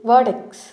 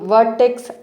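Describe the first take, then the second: First: The r sound after the first vowel is silent. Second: The r sound after the first vowel is pronounced. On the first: The speaker calls it right. "వర్టెక్స్ అని పలకాలి. ఇక్కడ ఆర్ అనేది silent" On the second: The speaker calls it wrong. "So మనం వర్టెక్స్ అని అనకూడదు"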